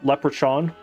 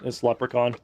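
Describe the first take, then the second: First: The middle consonant is a 'ch' sound. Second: The middle consonant is a 'k' sound. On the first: The speaker calls it wrong. "with a C H that is audibly pronounced" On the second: The speaker calls it right. "Just kidding"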